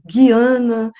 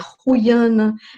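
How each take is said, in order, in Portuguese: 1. Diz-se com pronúncia inglesa. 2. Diz-se com pronúncia holandesa. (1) "em inglês" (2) "em holandês"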